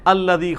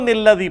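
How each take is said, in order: First: The word begins with a vowel, no n sound. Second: The word begins with a linking n sound. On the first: The reader paused after the previous verse. "जब हम कदीर पर वक्फ करते हैं तो हम क्या पढ़ते हैं?" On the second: It is joined to the previous verse. "जब आप पिछली आयत से मिलाएंगे तो निल्लज़ी पढ़ेंगे"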